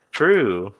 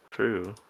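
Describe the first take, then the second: First: A firm, louder "True." falling at the end; emphatic agreement. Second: A soft, muted "True." repeated to oneself; quiet echo. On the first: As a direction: agree with it firmly. Agreeing with own joke. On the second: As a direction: murmur it back softly. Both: Real, not acted.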